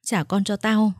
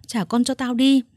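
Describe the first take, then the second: First: Said in the usual way. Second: The repeat thrown out louder and higher; mild hoarse scream, louder on the repeat; yelling. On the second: A narrator's reading. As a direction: demand it again, harder. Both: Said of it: "Linh gào khản cả tiếng".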